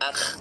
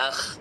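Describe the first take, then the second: First: The final kh sound is soft and gentle. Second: The final kh sound is soft and gentle.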